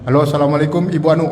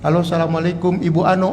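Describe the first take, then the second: First: The voice is firm and businesslike. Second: The voice is very soft and sweet. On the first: The speaker keeps a stranger at a distance. The speaker calls it right. "udah ditegasin aja" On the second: The speaker is flirting with a stranger. The speaker calls it wrong. "itu suaranya lembut banget itu"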